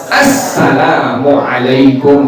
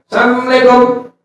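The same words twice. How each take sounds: First: Assalamualaikum slow and complete; every syllable of Assalamualaikum; careful proper salam; correct full greeting. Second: Assalamualaikum slurred as samlekong, higher; clipped lazy Assalamualaikum; neighbour's careless salam; mock sloppy greeting. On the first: Shown as a demonstration. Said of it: "Yang benar apa?". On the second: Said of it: "Jangan Assalamualaikum".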